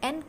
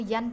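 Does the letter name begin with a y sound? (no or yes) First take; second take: no; yes. First: It begins directly with the vowel sound. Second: It begins with a y glide before the vowel.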